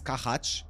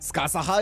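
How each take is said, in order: First: The name ends with a soft ch sound. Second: The name ends with an added ha syllable. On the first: "Is it um with a C H?" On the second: "Skasaha is the Japanese pronunciation"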